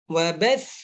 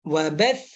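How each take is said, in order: The two takes are said the same way.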